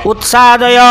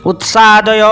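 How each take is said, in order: Both takes have the same delivery.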